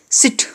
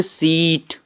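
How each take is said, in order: First: सिट with a short clipped i, like English sit; short vowel. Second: सीट with a long drawn ee, like English seat; long vowel. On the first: Teacher demonstrating सिट as the short sound. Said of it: "short sound मतलब उसको छोटे में बोल देना सिट". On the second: Teacher contrasting सीट as the long sound. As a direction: stretch the ee in सीट. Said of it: "अगर long sound की बात करें जैसे सीट". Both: Shown as a demonstration.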